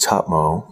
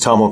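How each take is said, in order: First: The name is said in its original native way. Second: The name is said in its common anglicized way.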